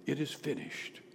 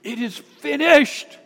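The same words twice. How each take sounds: First: Low, very soft quote; hushed restating of the final cry; subdued recap. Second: High, slow, loud proclamation; acted cry of completion. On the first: Retold or imitated. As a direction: say it quietly, dropped low. Repeats the cry quietly. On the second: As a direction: cry it out high and loud, stretching the last word. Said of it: "he cried out with a loud voice".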